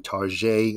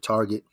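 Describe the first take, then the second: First: It is said with a mock French pronunciation. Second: It is said with a plain English pronunciation. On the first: "Just like you say Target instead of Target" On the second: "instead of Target"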